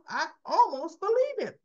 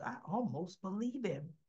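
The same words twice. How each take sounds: First: "almost believe him" pitched high and loud; emphatic repeat. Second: Said in the usual way. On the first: Real, not acted. Host insisting he nearly convinced her, emphatic.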